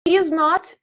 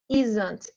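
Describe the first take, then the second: First: It is said as two separate full words. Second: It is said as one contracted word.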